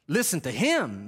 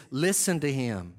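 First: "him" punched with a swooping fall; stress on HIM. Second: LISTEN said evenly, settling down on "to him"; measured command. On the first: Preacher tries another inflection of the Lord's command, HIM stressed. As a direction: lean hard on HIM at the end. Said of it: "Maybe that's what he's saying". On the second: Preacher tries the Lord's inflection, "Listen to him" evenly falling. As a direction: start firm on "Listen", let "to him" fall calmly. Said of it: "Is it literally this?". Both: Shown as a demonstration.

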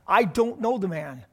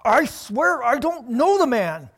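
First: Said in the usual way. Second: Slow, louder, pressed sworn oath; intense sworn denial. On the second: Acted. Peter cornered by enemies, swearing his denial. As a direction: swear it out, desperate and heated. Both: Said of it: "Can you see the intensity here?".

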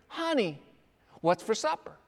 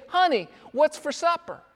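First: Soft murmur close to the ear; whisper. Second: Said in the usual way. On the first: Shown as a demonstration. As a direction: lean in and say it quietly, as if into an ear. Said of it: "whisper into her ear". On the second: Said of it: "go into the kitchen and say".

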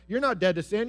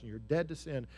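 First: Higher, louder taunt, punching not; loud accusing denial; accusing Satan. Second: Softer, calm assurance of being dead to sin; quiet tender affirmation; gentle Holy Spirit. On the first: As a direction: sneer it at them. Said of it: "Satan is certainly gonna whisper in our ear and say". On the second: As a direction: tell them quietly they are free. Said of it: "the Holy Spirit comes and he says". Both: Acted.

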